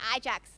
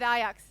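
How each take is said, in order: First: Ajax is said with an English pronunciation. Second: Ajax is said with a Swiss-German pronunciation. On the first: This is what the listeners call it. "you guys call it Ajax" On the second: This is what the Swiss call it. "We call it we call it Ajax"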